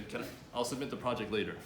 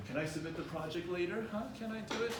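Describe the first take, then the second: First: Said in the usual way. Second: Mildly hesitant, rising question; uncertain asking. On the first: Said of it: "Just say". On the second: Shown as a demonstration. Student unsure, asks to submit the project late. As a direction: sound unsure, voice going up high. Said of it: "Sounding certain".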